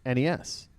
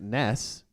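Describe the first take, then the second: First: Each letter is spoken separately. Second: It is spoken as a single word. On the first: "You say it out" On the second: "saying it as one word"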